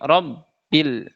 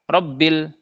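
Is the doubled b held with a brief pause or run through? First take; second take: held; run through. First: The doubled b is held with a brief pause. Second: The doubled b runs straight on without pause. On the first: The speaker calls it right. "tapi robbil, kasih jeda sedikit" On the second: The speaker calls it wrong. "jangan langsung robbil"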